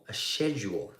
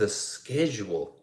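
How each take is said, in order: First: Schedule said with a soft "sh" start; British pronunciation. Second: Schedule said with a hard "sk" start; American pronunciation. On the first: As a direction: say "schedule" as SHED-yool. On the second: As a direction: say "schedule" as SKED-jool. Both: Shown as a demonstration. Same word said two ways.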